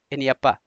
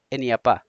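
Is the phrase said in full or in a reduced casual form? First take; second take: reduced; reduced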